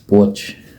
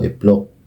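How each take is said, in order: First: The name begins directly with a consonant. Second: The name begins with an added vowel sound. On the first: This is how local people actually say the name. "kung ipo-pronounce po talaga ng mga taga dito" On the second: This is how the name looks when read from its spelling. "kung babasahin po ang lugar na yun sa basa po"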